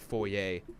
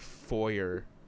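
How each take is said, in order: First: It is said with a non-American pronunciation. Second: It is said with an American pronunciation. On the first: The speaker calls it right. "where you're supposed to like foyer" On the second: The speaker calls it wrong. "Americans say shit like foyer"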